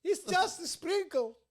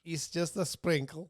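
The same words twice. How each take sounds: First: Very high, slow, put-on voice; exaggerated high-pitched joke line; squeaky comic voice. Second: Slow comic voice near usual pitch; slow, lightly put-on joke line. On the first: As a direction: stretch it out in a silly falsetto. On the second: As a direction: draw it out slowly as a silly bit. Riffing on the lemonade joke.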